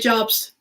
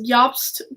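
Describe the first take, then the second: First: The name begins with a J sound. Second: The name begins with a Y sound. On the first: This follows the American pronunciation. "I'm in America. I say Jobst" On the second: This follows the European pronunciation. "The J is pronounced as a Y in the European languages"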